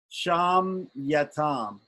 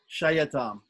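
First: An m sound comes before the y. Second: There is no m sound before the y. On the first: The speaker calls it right. "There's an M here before the Y" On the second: The speaker calls it wrong. "no M when you send this word"

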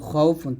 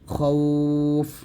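First: The word ends with a nasal 'un' ending. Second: The word ends on a bare final consonant. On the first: The reading continues past this word. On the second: The reader stops at this word.

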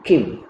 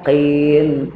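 First: The consonant is a plain front k sound. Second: The consonant is a deep throaty qaf sound. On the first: The speaker calls it wrong. "kim salah" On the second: The speaker calls it right. "qaqin, qin, macam tu"

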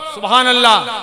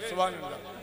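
First: It is said loudly and clearly. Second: It is said weakly and half-heartedly.

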